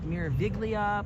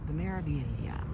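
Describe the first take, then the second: First: The G is sounded out in the name. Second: The G is silent in the name. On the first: The speaker calls it wrong. "It has a G in there" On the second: The speaker calls it right. "but you don't pronounce the G"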